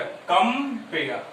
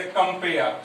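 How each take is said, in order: First: "कंपेयर" slowly as कं, then पेयर; slow two-syllable demonstration of "कंपेयर"; split into syllables. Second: Said in the usual way. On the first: Shown as a demonstration. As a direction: break "कंपेयर" into two separate beats, कं-पेयर. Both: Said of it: "ये एक साथ नहीं बोला है".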